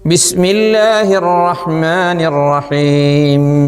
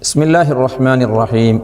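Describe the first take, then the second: First: The first b sound is clearly pronounced. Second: The first b sound is rushed and weak. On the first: The speaker calls it right. "നമുക്ക് ശ്രദ്ധയോടെ ഓതാം" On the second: The speaker calls it wrong. "ആ വേഗതയിൽ പലർക്കും ആദ്യാക്ഷരമാകുന്ന ബി ശരിക്ക് വരുന്നില്ല"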